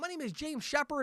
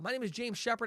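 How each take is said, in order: First: It is said in an over-the-top enthusiastic way. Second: It is said in a calm, understated positive way. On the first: This is how to introduce oneself on the phone. "more over the top positive" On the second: This is how to introduce oneself in person. "that kind of understated attitude"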